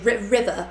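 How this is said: It is said in a British accent. "in England, we'll say"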